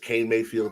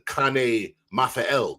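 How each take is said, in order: First: The surname is pronounced in the ordinary way. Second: The surname is pronounced in a fancy, foreign-sounding way.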